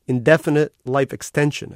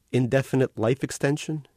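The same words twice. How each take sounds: First: Indefinite life extension said again, louder and pointed; correcting the machine: indefinite, not effeminate; firm correction. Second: Said in the usual way. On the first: Acted. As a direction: set the otter straight, stressing indefinite. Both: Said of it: "You said effeminate life invention".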